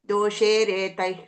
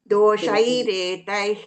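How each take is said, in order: First: The second syllable has the plain vowel 'e'. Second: The second syllable has the diphthong 'ai'. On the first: The speaker calls it wrong. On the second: The speaker calls it right.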